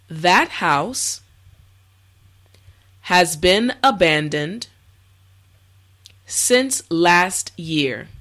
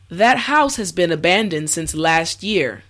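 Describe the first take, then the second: First: It is spoken slowly and carefully. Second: It is spoken at a normal speed. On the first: "this time repeat after me" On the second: "the last time at a regular pace"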